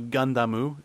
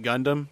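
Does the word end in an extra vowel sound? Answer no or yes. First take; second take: yes; no. First: The word ends with an added u vowel. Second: The word ends on the final m sound. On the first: "I think, is the correct way to pronounce it" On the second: "you can pronounce it Gundam just fine"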